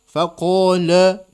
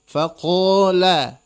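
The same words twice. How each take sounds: First: The L is pronounced thick and heavy. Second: The L is pronounced thin and light. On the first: The speaker calls it wrong. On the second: The speaker calls it right.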